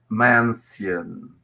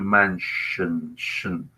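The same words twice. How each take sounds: First: The middle has an s followed by a y sound. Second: The middle has a single sh sound. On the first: This is how the word was probably said long ago. "with the alveolar fricative sound and the palatal sound as mansion" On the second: This is how the word is said today. "this changed into mansion"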